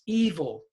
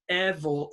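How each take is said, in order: First: The first vowel is long. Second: The first vowel is short. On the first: The speaker calls it right. "it's evil" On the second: The speaker calls it wrong. "this is not evil"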